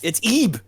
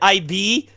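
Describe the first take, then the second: First: The name begins with an 'ee' vowel. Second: The name begins with an 'eye' vowel. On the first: This is the official name of the character. The speaker calls it right. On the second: This is the speaker's own habitual name for the character. The speaker calls it wrong. "I always called it"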